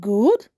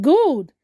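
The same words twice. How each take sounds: First: GOOD with a rising question tune; questioning echo. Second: GOOD as a firm falling statement; pleased statement. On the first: Engineer queries Kemi's answer, GOOD rising in doubt. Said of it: "The engineer said, "Good?". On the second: Kemi answers the engineer's overload news, GOOD falling and assured. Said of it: "Kemi smiled slightly and said". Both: A narrator's reading.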